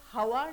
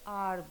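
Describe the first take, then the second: First: The word begins with an h sound. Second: The word begins with a vowel sound. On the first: The speaker calls it wrong. "जब हम हवा नहीं बोलते" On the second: The speaker calls it right. "आर बोलते हैं"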